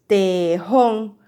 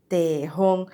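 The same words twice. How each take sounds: First: "tejón" loudly as te, jón, with a gap; "tejón" in two separate, loud beats; split into syllables. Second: "Tejón" lower, as te, jón; "Tejón" in two measured beats; split into syllables. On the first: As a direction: count out both syllables of "tejón". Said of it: "¿Cuántas sílabas?". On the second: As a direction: sound out both syllables of "Tejón". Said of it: "dos sílabas". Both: Shown as a demonstration.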